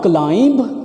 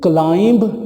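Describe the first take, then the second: First: A b sound is pronounced at the end. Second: The same.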